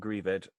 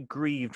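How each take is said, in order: First: The ending is said as an extra syllable. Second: The word is said as one syllable. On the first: The speaker calls it wrong. "rather than" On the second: The speaker calls it right. "I don't think there's an accent on that one"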